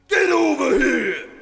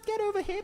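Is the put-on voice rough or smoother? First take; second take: rough; smoother. First: A rough, gruff put-on voice like a trucker. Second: A smoother put-on voice, less gruff. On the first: The speaker calls it wrong. "Can you sound a little bit less like you're a trucker?" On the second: The speaker calls it right. "That's pretty good"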